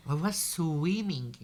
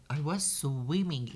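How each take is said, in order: Both takes have the same delivery.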